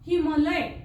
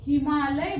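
First: The vowel after 'm' is short. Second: The vowel after 'm' is long. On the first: The speaker calls it wrong. "हिमलय बरोबर नाही" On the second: The speaker calls it right. "हिमालय बरोबर आहे"

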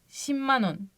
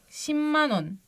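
No difference in how they are said.

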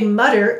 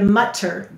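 First: The middle consonant sounds like a soft 'd'. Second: The middle consonant sounds like a clear 't'. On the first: "many people will say mutter" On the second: "instead of mutter"

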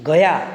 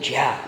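First: The word begins with a hard g sound. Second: The word begins with a j sound. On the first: "ગનો જ" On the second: "ગનો જ"

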